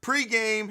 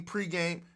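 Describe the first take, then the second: First: Pre-game said again, pitched much higher and punchier; pre-game said over. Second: Pre-game in his habitual clipped way; his usual pre-game. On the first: Shown as a demonstration. Streamer correcting himself, announcing Pre-game brightly and higher. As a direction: redo Pre-game up high, like a show name. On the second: Real, not acted. Streamer signing off, saying pre-game his usual way. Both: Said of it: "why do I say it that way?".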